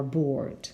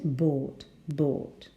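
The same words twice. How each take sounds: First: "bored" with the R sounded; own-accent "bored", R before the D; pronounced R. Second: "bored" with the R left silent; non-rhotic "bored", long vowel straight into D; transcription pronunciation. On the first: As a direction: say "bored" rhotically, R clearly heard. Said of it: "I pronounce the R". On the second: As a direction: say "bored" as in RP, without R. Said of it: "But the transcription is". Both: Shown as a demonstration.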